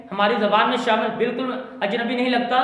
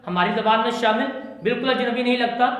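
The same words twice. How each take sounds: The two takes are said the same way.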